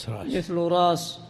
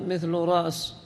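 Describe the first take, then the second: The two takes are said the same way.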